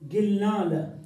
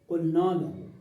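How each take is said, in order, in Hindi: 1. यह कड़ी G ध्वनि से शुरू होता है, बोली वाले रूप में। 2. यह गहरी Q ध्वनि से शुरू होता है, पूरे रूप में। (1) "गाफ, गैन नहीं" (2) "ये फसीह है"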